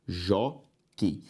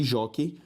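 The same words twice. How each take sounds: First: "jockey" split as jó, quei; a pause between the two syllables of "jockey". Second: Said in the usual way. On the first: Shown as a demonstration. Teacher separating the next word, syllable by syllable. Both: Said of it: "vamos separar as próximas".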